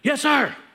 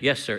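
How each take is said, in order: First: The words are said loudly and forcefully. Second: The words are said softly and weakly. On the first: The speaker calls it right. "It was yes, sir" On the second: The speaker calls it wrong. "you couldn't just say yes, sir"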